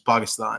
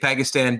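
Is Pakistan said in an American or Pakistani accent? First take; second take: Pakistani; American. First: The name is said with a Pakistani pronunciation. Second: The name is said with an American pronunciation. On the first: This is how the speaker personally says it. "then I say it the way I say it" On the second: This is the form the audience knows. "I say Pakistan just to get that out there"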